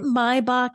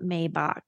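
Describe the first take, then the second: First: The name is said with German pronunciation. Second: The name is said with English-style pronunciation.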